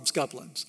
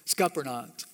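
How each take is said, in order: First: The word is said in a clipped, shortened form. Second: The word is said in its longer, fuller form. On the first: This is what the family called them. "We called them scuplins" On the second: This is the proper name of the grape. "I don't even know the right way to say it"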